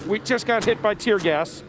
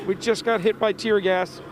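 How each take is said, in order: First: Laughing from tear gas. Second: Choked up, eyes streaming; strained, tear-gassed voice; teary from tear gas. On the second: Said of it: "my eyes are watering and I can barely". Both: Real, not acted.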